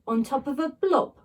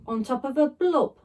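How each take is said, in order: Both takes have the same delivery.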